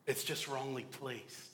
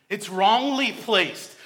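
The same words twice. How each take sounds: First: Said in the usual way. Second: It's wrongly placed, with wrongly slow, high and loud; stress on wrongly. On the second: Shown as a demonstration. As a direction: wrongly hit higher, louder and slow.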